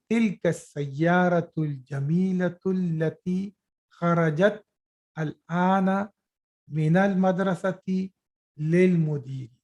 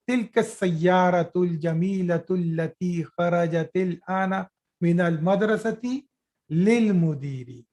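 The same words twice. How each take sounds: First: A bit slower, with pauses between phrases; slower reading demo; read slowly. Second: Quick, run-on reading of the Arabic sentence; fast reading demo. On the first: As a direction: break the sentence into parts with small gaps. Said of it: "Now let me re-, read it slowly". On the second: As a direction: rattle the sentence off at speed. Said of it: "I will read it fast". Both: Shown as a demonstration.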